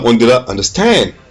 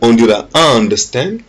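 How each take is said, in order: First: The stress is on the last syllable, stand. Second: The stress is on the first syllable, un.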